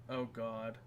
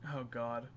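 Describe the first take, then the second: No difference in how they are said.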